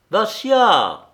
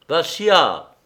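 First: High, loud shout falling away; desperate call to an unresponsive friend; louder cry. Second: Higher, loud call of a name; sharp cry that falls at the end. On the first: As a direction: shout the name much higher, more urgently. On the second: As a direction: call out to a friend in alarm. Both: A narrator's reading. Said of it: "cria Arcade".

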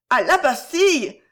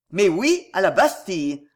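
First: Higher, louder exclamation of dismay; alarmed cry. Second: Firm, emphatic confirmation; forceful. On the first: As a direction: cry out in shocked protest for two frightened women. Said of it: "S'écrièrent en même temps Violetta et Gisèle". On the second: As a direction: drive the point home with force. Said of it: "reprit Pardaillan avec force". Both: A narrator's reading.

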